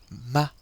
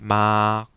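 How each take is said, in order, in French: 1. La syllabe est dite légèrement, sans ton marqué. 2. La syllabe est tenue longtemps sur une hauteur égale. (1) "Il faut le prononcer assez légèrement" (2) "Il faut le prolonger"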